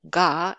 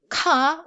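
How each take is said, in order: First: The consonant is fully voiced like English g. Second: The consonant has a strong puff of air. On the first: "or it's not ga" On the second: "It's not ka"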